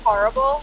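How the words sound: It is said with a Philly-area pronunciation.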